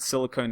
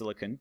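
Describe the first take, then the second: First: The last syllable is a long 'cone'. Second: The last syllable is a short 'con'. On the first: This marks the spelling with a final E. "I pronounce it silicone to help you remember" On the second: This is the usual way the word is said. "they're both pronounced silicon"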